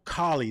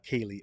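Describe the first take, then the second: First: The name rhymes with Bali. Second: The name does not rhyme with Bali. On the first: The speaker calls it right. "rhymes with Bali, similar to cauliflower" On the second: The speaker calls it wrong. "not Kaylee"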